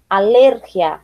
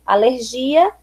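First: "alérgia" stressed on LER, g as breathy h; Spanish stress. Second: Said in the usual way. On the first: Shown as a demonstration. Teacher reading the list, "alérgia" with Spanish stress on LER. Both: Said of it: "diferença entre as palavras heterotônicas".

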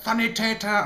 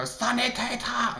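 First: German word. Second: "Sanitäter!" stretched out slow and higher in a hammed-up German accent; mock German cry. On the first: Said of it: "occasionally random words like". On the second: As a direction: let rip a drawn-out German "Sanitäter!" to blow off stress. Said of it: "run off somewhere and just go". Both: Shown as a demonstration.

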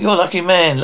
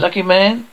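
First: Said in the usual way. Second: "man" lifted into a question; questioning echo. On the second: Acted. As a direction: throw "Lucky man" back with a rising end. Echoes the remark as question.

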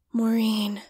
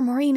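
First: A hushed, voiceless Maureen; murmured whisper. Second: Said in the usual way. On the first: A narrator's reading. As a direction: whisper the name Maureen with longing. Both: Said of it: "Ed murmured".

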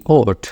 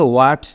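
First: "ওট" beginning on a round O; British-style "what". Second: "ওয়াট" with a W glide and open A; alternative "what". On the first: Teacher spells what, then says "ওট" British-style. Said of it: "British অনুযায়ী আপনি ওট উচ্চারণ করেন". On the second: Teacher shows another variant, "ওয়াট" with W glide. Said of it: "আরও উচ্চারণ আছে". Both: Shown as a demonstration.

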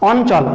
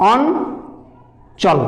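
First: Said in the usual way. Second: অঞ্চল drawn out very slowly so its syllables can be heard; very slow, spelled-out অঞ্চল in a teacher's demo; stretched out slowly. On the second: Shown as a demonstration. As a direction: pull অঞ্চল apart slowly for the class. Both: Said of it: "ভাঙা যাবে".

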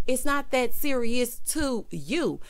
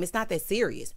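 First: Slow, deliberate, with "to you" leaned on hard; pointed correction; stress on to you. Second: Said in the usual way. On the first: Real, not acted. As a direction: spell out "it's not that serious to you" slowly.

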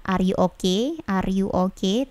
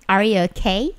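First: "okay" said with a soft, unreleased-puff K; unaspirated K in "okay". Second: "okay" with a strong, aspirated K; plosive K in "okay". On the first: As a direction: say "okay" softly, Indonesian-style, no burst of air on the K. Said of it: "perhatikan kata oke-nya itu bukan". ("okay" dengan K lembut tanpa letupan) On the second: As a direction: hit the K of "okay" with a burst of air. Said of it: "with plosive". ("okay" dengan K meletup kuat) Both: Shown as a demonstration.

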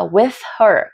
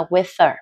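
First: Said in the usual way. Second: "with her" run together without the h; "with her" quick and linked, h silent; reduced linking. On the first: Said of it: "có một đoạn nó có thể hơi khó". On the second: Shown as a demonstration. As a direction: drop the h, "with her" becomes "with-er". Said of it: "có thể được đọc nhanh".

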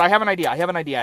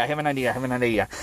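First: Said in the usual way. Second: "I have an idea" gabbled fast and soft; fast hushed rush. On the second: Shown as a demonstration. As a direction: rattle "I have an idea" off under your breath. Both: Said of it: "repeats faster and quieter".

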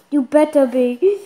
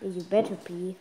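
First: Insistent warning. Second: Low, soft grumbled retort; muttered warning. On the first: Child warning apologetic mom, loud insistent retort. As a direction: say it back forcefully, ending on a rise. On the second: Child answering mom's apology, low grudging warning. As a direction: grumble it back under your breath. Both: Real, not acted.

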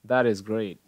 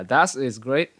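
First: "That is great" run together, T in That becoming D; linked words. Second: "That is great" with each word separate, not linked; words kept separate. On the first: Teacher models the linking for students, joined with a D. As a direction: link "That is" as "tha-dis" in "That is great". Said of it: "Chú ý là từ này nối". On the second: Teacher shows students the wrong way, unlinked words. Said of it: "Không phải là". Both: Shown as a demonstration.

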